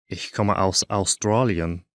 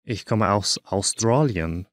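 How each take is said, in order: Both takes have the same delivery.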